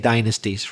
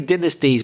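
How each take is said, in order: First: It is said with an American pronunciation. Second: It is said with a non-American pronunciation. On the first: "mostly in America they say dynasties" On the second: "I say dynasties"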